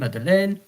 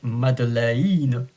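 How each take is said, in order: First: It is said with a French pronunciation. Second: Every letter is pronounced separately, Italian style. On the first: "like that" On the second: "because all the letters in Italian are pronounced uh, separately"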